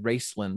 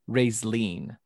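First: The last syllable does not rhyme with Jolene. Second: The last syllable rhymes with Jolene. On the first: The speaker calls it wrong. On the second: The speaker calls it right.

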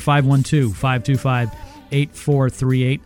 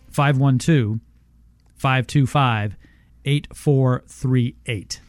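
First: The number is read quickly. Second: The number is read slowly.

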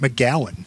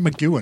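First: The second syllable has a 'gow' vowel. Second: The second syllable has a 'goo' vowel. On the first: "I would call it McGowan" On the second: "So you call it McGoohan"

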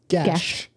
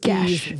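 First: The word has a hard G and 'bed' vowel. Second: The word is said without the 'bed' vowel. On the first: "it's hard G, E like bed" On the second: "The first one was Geas"

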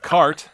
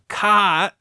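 First: It is said in general American, with r. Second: It is said in a Boston accent, without r.

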